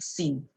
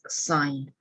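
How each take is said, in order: First: The vowel is short, like 'sin'. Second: The vowel is long, like 'sign'. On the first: The speaker calls it wrong. "not the common one that people will think sin" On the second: The speaker calls it right. "we pronounce it as sign"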